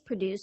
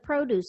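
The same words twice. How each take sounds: First: The stress is on the second syllable. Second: The stress is on the first syllable. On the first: It is a verb meaning to make. "The verb. ... for the verb, the stress is on the second syllable" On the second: It is a noun meaning fresh fruit and vegetables. "The noun. ... For the noun or adjective, the stress is on the first syllable"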